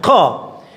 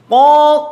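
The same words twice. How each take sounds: First: The qaf is said with a hiss. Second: The qaf is said without a hiss. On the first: The speaker calls it wrong. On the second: The speaker calls it right.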